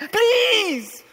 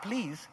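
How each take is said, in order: First: The word is said in an earnest, begging way. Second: The word is said in a flat, casual way. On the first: The speaker calls it right. "He's pleading with his audience" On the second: The speaker calls it wrong. "Not please"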